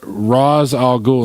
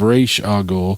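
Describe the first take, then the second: First: The first word is said like 'Rahz'. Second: The first word is said like 'Raysh'. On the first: This is how the movies say the name. "they pronounce uh R- Ra's al Ghul" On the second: This is how comic fans say the name. "instead of Raish al Ghul"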